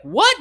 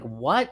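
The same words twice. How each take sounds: First: Loud, high-pitched disbelieving question; incredulous. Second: Said in the usual way. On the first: Retold or imitated. People reacting to his weekly workload, incredulous. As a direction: imitate someone astonished, voice leaping up. Others' escalating disbelief, retold.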